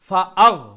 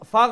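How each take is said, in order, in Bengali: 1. fa আর agh-এর মাঝে একটা glottal catch আছে। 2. fa সোজা gh-এর সাথে মিশে যায়, কোনো catch নেই। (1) "ফার পরে আর গাইনর আগে যে হামজা একটা উচ্চারণ" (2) "ফাগ ফাগ ফাগ নাই"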